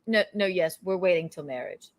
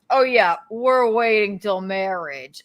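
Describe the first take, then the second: First: It is said flatly and seriously, like a governor. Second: It is said in an obviously joking tone.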